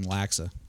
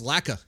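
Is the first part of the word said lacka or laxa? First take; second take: laxa; lacka. First: The first part is said as laxa. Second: The first part is said as lacka. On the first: The speaker calls it wrong. "I'm going to start calling people out for saying laxa" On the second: The speaker calls it right. "it's lacka"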